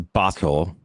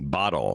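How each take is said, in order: First: The middle consonant is a clear, hard T. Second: The middle consonant is a quick D-like tap. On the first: It suggests the speaker is not a native speaker. The speaker calls it wrong. "nobody says bottle. That sounds really weird" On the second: It is the ordinary native way of saying it. The speaker calls it right. "it actually sounds like a D"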